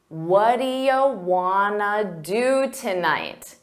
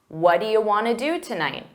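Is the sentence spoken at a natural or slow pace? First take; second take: slow; natural. First: The sentence is spoken very slowly. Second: The sentence is spoken at a natural pace. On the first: "Now I said it very slowly" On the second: "now I'll say it at a natural pace"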